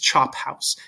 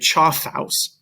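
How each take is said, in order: First: The middle consonant is a p sound. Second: The middle consonant is an f sound. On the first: The speaker calls it right. "It's chop house. It's a p sound" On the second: The speaker calls it wrong. "You don't say choff house. That's not how we pronounce it"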